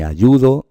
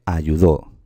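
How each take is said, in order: First: "ayudo" as a-YU-do, with a strong middle; stress on YU. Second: Slow "ayudó", landing on the last "dó"; stress on final syllable. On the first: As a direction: push the middle syllable "yu" of "ayudo". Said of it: "No se dice ni". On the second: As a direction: put the force at the end of "ayudó". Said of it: "si se dice ayudó". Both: Shown as a demonstration.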